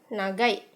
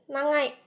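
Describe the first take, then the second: First: The middle consonant is a plain g sound. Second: The middle consonant is a nasal ng sound. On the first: "kalau bahasa Indonesia ini kita bacanya nagai" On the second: "dalam bahasa Jepang ini bisa dibaca dengan nangai"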